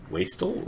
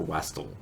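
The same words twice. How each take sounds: First: "Wastel" with a long A, WAY-stel. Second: "Wastel" with a short A, WASS-tel. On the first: Streamer weighing how to say the poem's name, "Wastel" as WAY-stel. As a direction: say "Wastel" like waist-el. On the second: Streamer weighing how to say the poem's name, "Wastel" as WASS-tel. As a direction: say "Wastel" to rhyme with tassel. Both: Shown as a demonstration. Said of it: "pronunciation of that is very critical".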